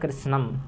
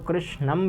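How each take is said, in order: First: The word is pronounced in a casual, ordinary way. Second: The word is pronounced in a more careful way. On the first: An ordinary person would say it this way. The speaker calls it wrong. "सामान्य अगर कोई व्यक्ति होगा तो कहेगा कृष्णम" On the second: A better speaker would say it this way. The speaker calls it right. "अगर कोई और अच्छा व्यक्ति होगा तो कृष्णम भी कर सकता है"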